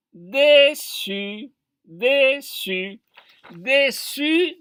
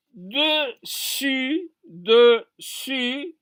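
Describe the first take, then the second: First: "dessus" as dé-ssus, with a closed é; wrong pronunciation demo. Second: "Dessus" as deu-ssu, with a rounded e; correct pronunciation demo. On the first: Teacher showing the mistaken reading, "dessus" as a drawn-out dé-ssus. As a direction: repeat "dessus" deliberately with é in the first syllable. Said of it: "si on, on dit dessus". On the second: Teacher showing the exception with two S, "Dessus" as deu-ssu. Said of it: "On dit de". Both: Shown as a demonstration.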